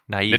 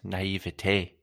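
First: It is said as a plain English word. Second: It is said with a showy French-style pronunciation.

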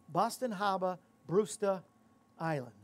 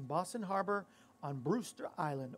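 First: It is said in a local Boston accent. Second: It is said in a neutral accent.

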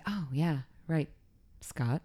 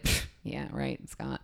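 First: It is said in a sincere, agreeing tone. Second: It is said in a scoffing, sarcastic tone.

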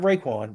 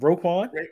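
First: The name begins with a 'ray' sound. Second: The name begins with a 'row' sound. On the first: The speaker calls it wrong. "Not Raekwon" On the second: The speaker calls it right.

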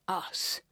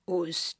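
First: The word is said in received pronunciation. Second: The word is said in a non-RP regional accent. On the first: This is the approved form. The speaker calls it right. "Received pronunciation, please believe us... We say us" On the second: This is the form being corrected. The speaker calls it wrong. "not us"

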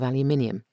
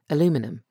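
First: The word is pronounced the British way. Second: The word is pronounced the American way. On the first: "instead of" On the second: "pronounce certain words in a more American way"

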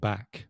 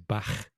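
First: The word ends in a hard k sound. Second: The word ends in a throaty h sound. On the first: "instead of saying back" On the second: "people in Liverpool have that h sound"

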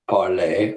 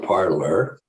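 First: The name is said with a non-American pronunciation. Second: The name is said with an American pronunciation.

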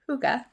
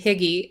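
First: The word is said like 'hooga'. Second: The word is said like 'higgy'. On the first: This follows the phonetic spelling. The speaker calls it right. "so I'm going to go with huga" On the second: This is how most people say it. The speaker calls it wrong. "I've heard everybody else say higgy, and I've also heard that it's not pronounced higgy"

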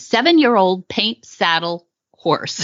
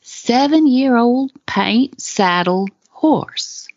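First: It is read in a plain, neutral accent. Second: It is read slowly in a Southern accent.

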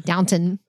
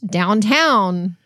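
First: The second syllable sounds like 'ton'. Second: The second syllable sounds like 'town'. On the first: This is the standard form of the name. "We don't say Downton" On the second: This is how it is said in Texas. "It's just we're from Texas. ... It's Downtown"

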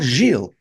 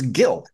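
First: The name is said the French way. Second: The name is said the English way. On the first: The speaker calls it wrong. "it's not Gilles" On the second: The speaker calls it right. "it's Gil"

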